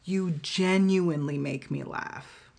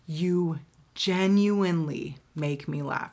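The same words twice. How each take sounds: First: Said in the usual way. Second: Slow, leaning hard on genuinely; genuinely stretched and weighted, said slowly; stress on genuinely. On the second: Shown as a demonstration. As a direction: drag out genuinely to make the point. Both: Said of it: "I can't stress genuinely enough".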